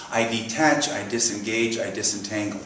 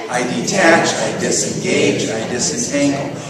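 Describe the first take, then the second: First: Said in the usual way. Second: Louder, deliberate call for all to join; group recitation. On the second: Shown as a demonstration. Teacher leading the congregation in an affirmation together, group recitation. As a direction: lead the room in firm unison.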